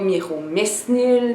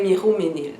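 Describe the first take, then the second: First: An S sound is heard before the N. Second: No S sound is heard before the N. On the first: The speaker calls it wrong. "c'était pas Miromesnil" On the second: The speaker calls it right. "on faisait dans le fond abstraction du S"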